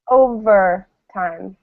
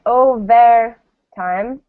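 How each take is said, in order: First: "overtime" slow, the middle "ver" reduced to a neutral "vuh"; schwa in the middle. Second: "overtime" with a full clear "ver" like "vair"; wrong full E vowel. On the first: Teacher shows students the correct neutral vowel. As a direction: say "overtime" slowly with a relaxed schwa. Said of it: "We say". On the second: Teacher shows students the wrong full E. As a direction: say "overtime" with a full E, not a schwa. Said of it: "So we don't say overtime". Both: Shown as a demonstration.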